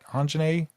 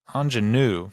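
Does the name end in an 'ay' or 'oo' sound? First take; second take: ay; oo. First: The name ends with an 'ay' sound. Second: The name ends with an 'oo' sound. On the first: The speaker calls it wrong. "I did mess it up" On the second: The speaker calls it right.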